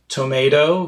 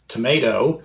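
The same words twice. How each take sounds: First: The first vowel is fully pronounced. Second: The first vowel is nearly dropped.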